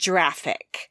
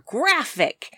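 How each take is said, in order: First: The word begins with a soft j-like sound. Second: The word begins with a hard g sound. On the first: The speaker calls it wrong. "not graphic" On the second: The speaker calls it right. "G in GIF stands for graphic"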